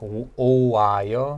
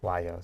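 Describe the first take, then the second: First: The vowels are stretched out into three syllables. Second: The vowels merge into two syllables with w. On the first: "So kind of to stretch it out" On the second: "almost like a W sound"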